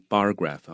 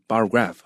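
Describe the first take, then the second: First: Slow, lean hard on bar, let graph drop; right stress on bar. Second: Bar light, graph punched with a falling tune; mock the wrong way, hit graph hard; wrong stress on graph. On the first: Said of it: "记得这重音啊". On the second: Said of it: "不要念". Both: Shown as a demonstration.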